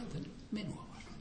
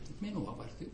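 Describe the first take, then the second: First: Whispered, higher, in disbelief; hushed astonished whisper; amazed whisper. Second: Said in the usual way. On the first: Retold or imitated. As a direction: breathe the words out in wonder. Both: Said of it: "Mä olin vähän hämmästynyt".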